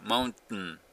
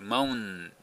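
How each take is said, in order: First: The airflow stops briefly before the final syllable. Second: The two n sounds run together with no stop. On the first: The speaker calls it right. "一瞬これね、マウンって言うてたのがなくなるでしょ。" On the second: The speaker calls it wrong. "T も発音しないと、マウン、マウンですね。N とN がつながるだけになっちゃうんで"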